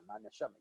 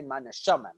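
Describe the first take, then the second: First: Soft devout echo. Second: Said in the usual way. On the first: Retold or imitated. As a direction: drop way down, hushed. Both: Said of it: "all the spiritual people are gonna say".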